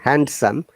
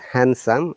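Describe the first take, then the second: First: The D sound is pronounced in the word. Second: The D sound is silent in the word. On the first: The speaker calls it wrong. "We don't say handsome" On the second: The speaker calls it right. "the D is silent in both cases. It is handsome"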